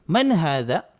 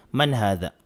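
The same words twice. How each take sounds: First: "Man hadha?" with a lift that rises on "hadha"; rising question tune. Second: "Man hadha?" said flat and low, falling, no question rise; the wrong way, with no asking tune. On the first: Teacher models the correct Arabic question for students. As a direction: make it a real question, rising at the end. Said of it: "kailangan patanong din po yung tono natin". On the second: Teacher shows students the wrong flat question tune. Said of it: "mali kapag sasabihin natin". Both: Shown as a demonstration.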